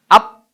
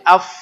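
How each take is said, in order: First: It ends in a closed sound with no breath. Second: It ends with an audible stream of breath. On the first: The speaker calls it wrong. "tertutup nggak ada nafas" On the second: The speaker calls it right. "ada nafas"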